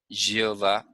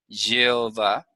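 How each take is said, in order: The two takes are said the same way.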